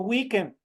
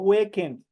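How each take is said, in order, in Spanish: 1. La primera vocal suena como 'ee'. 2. La primera vocal suena como 'eh'. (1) "por eso yo digo weekend" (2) "no digo weekend"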